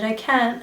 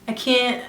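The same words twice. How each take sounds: First: It is said in a British accent. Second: It is said in a New York accent. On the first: "I literally love their accent, and they always say" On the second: "if a girl from New York were to say that"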